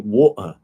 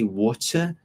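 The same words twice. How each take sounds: First: The T sound in the middle is dropped. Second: The T sound in the middle is pronounced.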